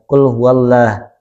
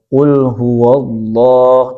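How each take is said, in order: First: The L is pronounced light and thin. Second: The L is pronounced heavy and thick. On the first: The speaker calls it wrong. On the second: The speaker calls it right.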